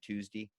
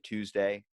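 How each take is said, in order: First: It is said with a Maryland pronunciation. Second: It is said with a standard pronunciation. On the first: "I usually say" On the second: "if you say"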